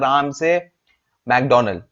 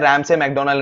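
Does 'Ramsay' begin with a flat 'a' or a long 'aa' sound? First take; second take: long aa; flat a. First: The first syllable has a long open 'aa' vowel. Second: The first syllable has a flat front 'a' vowel. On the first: The speaker calls it wrong. "इनका pronunciation शायद गलत है" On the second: The speaker calls it right. "रैम से McDonald इनका नाम है"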